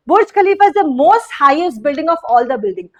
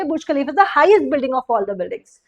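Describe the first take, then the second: First: Slow wrong example. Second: Slow corrected example. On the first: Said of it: "most highest building नहीं हो सकता". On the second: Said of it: "तो आप बोलोगे". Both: Shown as a demonstration.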